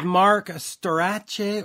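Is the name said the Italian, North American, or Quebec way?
Italian. The surname is said the Italian way.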